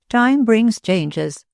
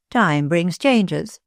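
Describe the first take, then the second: First: Slow higher echo. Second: Slow musing. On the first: Moore repeats phrase, higher. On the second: Moore repeats phrase musingly. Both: Acted.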